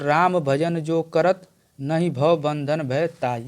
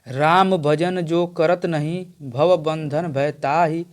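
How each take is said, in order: First: The pause comes before the word 'नहीं'. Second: The pause comes after the word 'नहीं'.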